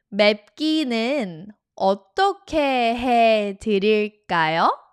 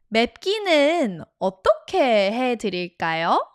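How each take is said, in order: First: The sentence is spoken at a noticeably slower pace. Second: The sentence is spoken at a normal, quicker pace.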